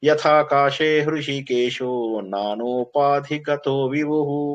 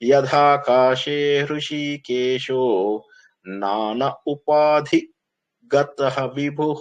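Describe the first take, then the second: First: The words are joined together with sandhi. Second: Each word is read separately without sandhi. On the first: "కలిపి చదివాను" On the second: "అన్ని విడదీసుకుంటూ చదివాను"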